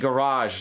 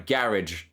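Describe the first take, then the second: First: It is said with an American pronunciation. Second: It is said with a British pronunciation. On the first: "a garage" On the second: "not a garage"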